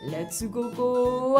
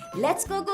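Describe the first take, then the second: First: It is said slowly. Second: It is said fast.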